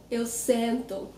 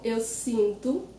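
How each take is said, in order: First: Slow sento with nasal eh; contrast vowel. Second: Slow sinto with nasal ee; contrast vowel. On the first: Teacher contrasts sit with feel, slow sento with e vowel. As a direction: say sento slowly as SEN-too. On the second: Teacher contrasts feel with sit, slow sinto with ee vowel. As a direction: say sinto slowly as SEEN-too. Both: Shown as a demonstration. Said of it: "the difference between to feel and to sit".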